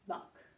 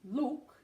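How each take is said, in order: First: The vowel is an open uh sound. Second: The vowel is a short rounded oo sound. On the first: The speaker calls it wrong. "they make it an uh" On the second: The speaker calls it right. "oo is short"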